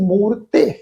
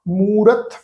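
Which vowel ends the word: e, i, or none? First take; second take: e; none. First: The word ends with an added e vowel. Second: The word ends on the consonant, no vowel. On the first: The speaker calls it wrong. "ਮੂਰਤੇ ਇਸ ਢੰਗ ਨਾਲ ਨਹੀਂ ਨਾ ਪੜਿਆ" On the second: The speaker calls it right. "Silent ਰਹਿ ਗਈ"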